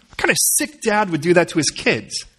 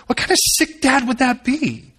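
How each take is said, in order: First: Said in the usual way. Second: Much higher, rising disbelief; outraged rhetorical question, pitched high; indignant, pitched up. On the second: Real, not acted. Pastor asks congregation, much higher and indignant.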